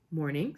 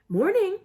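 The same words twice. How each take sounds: First: Said in the usual way. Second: Bright, high and loud greeting; a cheery hello, pitched way up; Morning tossed out brightly and loudly, much higher. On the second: A narrator's reading. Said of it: "said Mister Weasley brightly".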